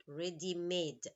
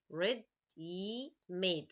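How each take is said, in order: First: Said in the usual way. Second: Ready-made said very slowly, syllable by syllable; split into syllables. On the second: Shown as a demonstration. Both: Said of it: "Three syllables".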